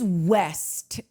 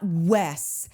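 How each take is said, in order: First: The name ends with a clear t sound. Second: The name ends without any t sound. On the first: The speaker calls it right. "I do just need to say it is West" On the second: The speaker calls it wrong. "It is not Wes"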